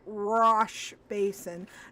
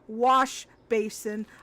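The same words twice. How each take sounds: First: The word wash begins with an R-like sound. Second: The word wash begins with a clear W sound. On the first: The speaker calls it wrong. "my brain kept trying to say wash basin" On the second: The speaker calls it right. "not wash basin"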